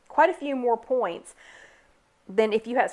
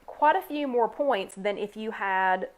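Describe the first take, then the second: First: Words broken by a hiccup. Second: Said in the usual way. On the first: Real, not acted. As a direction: talk through the hiccups. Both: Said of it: "sorry, the hiccups".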